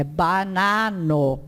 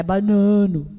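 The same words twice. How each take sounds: First: "banano" slowly with open, oral A vowels; slow, clearly separated "banano" without nasal vowels; non-nasal A. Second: "banano" with the A before N nasalized; quicker "banano" with a muffled nasal A; wrongly nasalized A. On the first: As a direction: keep the A before N in "banano" pure, un-nasalized. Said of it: "pra não anasalar". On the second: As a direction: say "banano" Portuguese-style, nasal middle vowel. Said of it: "Não é banano". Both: Shown as a demonstration.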